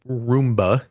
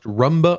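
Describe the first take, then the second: First: It is said with a Japanese-style pronunciation. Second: It is said with an English-style pronunciation. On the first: "if we're going uh with with the Japanese pronunciation" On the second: "I don't know if it's pronounced Rumba"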